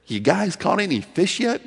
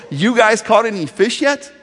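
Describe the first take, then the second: First: Loving question. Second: Loud, higher call across the water; calling out from shore. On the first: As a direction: ask it with compassion. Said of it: "Lovingly, compassionately". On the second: Jesus calling to the fishermen, a loud call from shore. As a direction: yell it to the boat. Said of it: "that's what he yells from the shore". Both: Retold or imitated.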